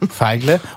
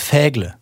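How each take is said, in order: First: The name starts like the German word Feige. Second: The name is said in a French-sounding way. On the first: The speaker calls it right. "Also wie die kleine Feige" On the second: The speaker calls it wrong. "Ich dachte, das wäre Französisch"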